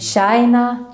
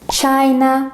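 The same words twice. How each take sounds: First: The word begins with an sh sound. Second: The word begins with a ch sound.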